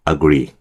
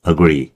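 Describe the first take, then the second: First: 'I' merges into 'agree' as one word. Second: 'I' merges into 'agree' as one word.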